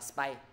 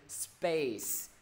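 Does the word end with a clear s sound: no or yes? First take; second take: no; yes. First: The word ends without a clear s sound. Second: The word ends with a clear s sound. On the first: The speaker calls it wrong. "chứ thầy không đọc là space" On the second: The speaker calls it right. "là từ space"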